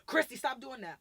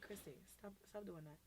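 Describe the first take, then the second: First: Loud, higher-pitched scolding; screaming at a kid. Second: Calm correction. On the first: Adult screaming at a child, loud telling-off. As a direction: yell it as a sharp order. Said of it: "Why you screaming at me?". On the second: Adult calmly correcting a child, softly. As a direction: say it gently, well below a yell. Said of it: "you can be like". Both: Shown as a demonstration.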